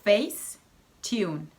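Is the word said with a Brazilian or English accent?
English. It is said with an English pronunciation. "Isso também é só Facetune"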